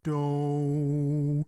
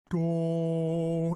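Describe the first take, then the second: First: The vowel glides like 'oh' in dough. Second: The vowel is a pure rounded 'oo' sound. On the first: The speaker calls it wrong. "It's not do. It's not D O W or like cookie dough" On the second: The speaker calls it right. "It's do as in like D O H like do"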